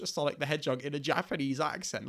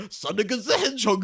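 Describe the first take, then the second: First: Said in the usual way. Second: Loud, high mock Japanese accent; hammed-up Japanese accent imitation.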